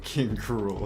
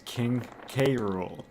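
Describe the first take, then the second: First: The K merges into one word, like cruel. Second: The K is said as a separate letter. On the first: The speaker calls it wrong. "they called him King Cruel" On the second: The speaker calls it right. "I always read it as King K. Rool"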